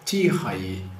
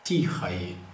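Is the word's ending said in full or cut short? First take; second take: full; full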